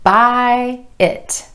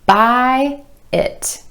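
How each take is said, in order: The two takes are said the same way.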